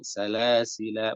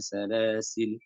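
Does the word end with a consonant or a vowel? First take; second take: vowel; consonant. First: The word ends on the vowel 'a'. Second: The word ends on the consonant 'l'.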